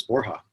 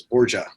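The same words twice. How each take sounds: First: "Borja" as BOR-hah; proper Spanish pronunciation. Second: "Borgia" as BOR-juh; childhood pronunciation. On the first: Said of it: "the proper pronunciation was". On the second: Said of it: "I grew up, when I started". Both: Shown as a demonstration.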